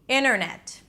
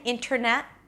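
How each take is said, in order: First: The T after the N is dropped. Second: The T after the N is pronounced. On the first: The speaker calls it right. "skipping the T" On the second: The speaker calls it wrong. "I'm not saying internet"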